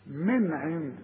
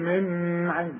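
First: The first n is said plainly, without nasal holding. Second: The first n is held with a nasal hum. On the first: The speaker calls it right. "كل نون عليها سكون لا تغن" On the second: The speaker calls it wrong. "مش تقول لي من عند"

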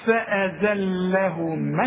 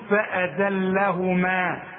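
First: The final long 'a' vowel is not pronounced. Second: The final long 'a' vowel is pronounced. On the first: The word runs on into the next word. "عند الوصل هنلغي الألف دي مش هنقولها، اسمعها" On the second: The reciter stops on this word. "تثبت الألف عند الوقف تقول فأذلهما"

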